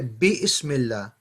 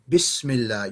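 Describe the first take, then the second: First: 'Bi' and 'ism' are said as separate parts. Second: 'Bi' and 'ism' are joined into one word. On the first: The speaker calls it wrong. "But you don't say bi ismillah" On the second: The speaker calls it right. "You join it"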